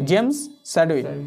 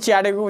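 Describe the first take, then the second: First: The name begins with an 's' sound. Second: The name begins with a 'ch' sound.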